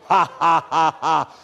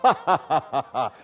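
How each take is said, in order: First: The laugh sounds forced and stiff. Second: The laugh sounds genuine and amused.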